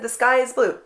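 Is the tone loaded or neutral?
neutral. It sounds plain and matter-of-fact, with no edge. The remark is just a simple observation. The speaker calls it right. "No, I didn't say it that way. I said"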